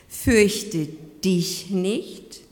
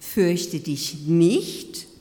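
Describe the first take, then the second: First: The stress falls on the word dich. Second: The stress falls on the word nicht. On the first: You personally are being addressed. "du persönlich bist angesprochen" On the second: Stop being afraid. "hör doch auf, dich zu fürchten"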